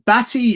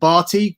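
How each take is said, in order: First: The name is said as batty. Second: The name is said as barty. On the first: The speaker calls it wrong. "if you say it like that" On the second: The speaker calls it right. "instead of Barty"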